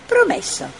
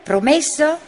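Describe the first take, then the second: First: High, quick little creature promise with a wink; cheeky promise. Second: Said in the usual way. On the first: A narrator's reading. Puzzle promising Mira with a wink, high and playful. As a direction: toss it back playfully. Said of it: "ammiccò Puzzle".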